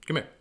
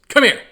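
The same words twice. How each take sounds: First: It is said in a gentle, nicer tone. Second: It is said in a harsh, stern tone.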